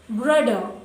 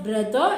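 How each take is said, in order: First: It is said in a German accent. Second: It is said in a standard English accent. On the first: "it is brother" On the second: "Instead of brother"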